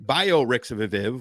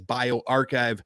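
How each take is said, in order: First: The ending is sounded out as 'rix-a-viv'. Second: The ending is said like the word 'archive'. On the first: The speaker calls it wrong. "I've already told you that that's not how it's pronounced" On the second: The speaker calls it right. "is also pronounced as BioArchive"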